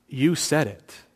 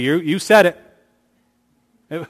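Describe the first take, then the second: First: It is said in a grave, serious tone. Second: It is said in a light, joking tone. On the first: It places the responsibility on the one asking. The speaker calls it right. "In a moment of seriousness" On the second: It is a casual quip tossing the remark back. The speaker calls it wrong. "I got to turn it into a joke"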